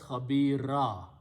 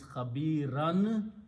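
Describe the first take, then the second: First: The word ends with a vowel sound. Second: The word ends with an n sound. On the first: "pronounced as Khabira" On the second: "the sound of this two zabar, which is Khabiran"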